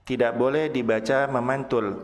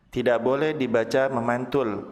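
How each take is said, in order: Both takes have the same delivery.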